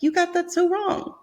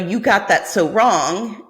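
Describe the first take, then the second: First: It is said in a warm, loving tone. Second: It is said in a harsh, judging tone. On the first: The listener is being gently teased or affirmed. "I'm hearing it in that sort of loving tone" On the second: The listener is being criticized. "in this really like daggers of judgment tone"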